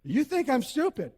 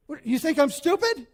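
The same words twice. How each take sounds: First: Light mocking replay of the accusation; mock echo. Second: Higher, louder indignant challenge; indignant wife. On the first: Shown as a demonstration. Preacher replays the wife's line for the congregation, mock echo. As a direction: repeat it to show the audience, half-teasing. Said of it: "you can't say that when you're married". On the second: Retold or imitated. Wife demands if husband thinks she's stupid, indignant. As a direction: throw the accusation back at him. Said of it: "And she says".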